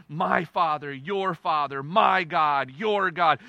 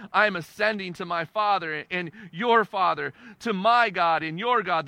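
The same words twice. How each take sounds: First: "my" and "your" each hit as a contrast, Father and God kept level; stress on my and your. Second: Said in the usual way. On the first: Shown as a demonstration. Preacher pointing out Jesus' wording to the congregation, stressing "my" and "your". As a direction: set "my" against "your" in every phrase. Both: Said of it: "The language is interesting here".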